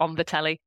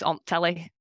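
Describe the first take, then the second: First: The word 'the' is pronounced in full. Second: The word 'the' is reduced almost to nothing. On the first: "as opposed to" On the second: "people in parts of the north of England will really drastically reduce certain words"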